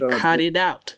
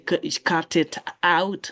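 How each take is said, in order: First: The t sounds are linked and sound like d. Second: The t sounds are clear, unlinked t sounds. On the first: The speaker calls it right. "You say cut it out" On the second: The speaker calls it wrong. "you don't say cut it out"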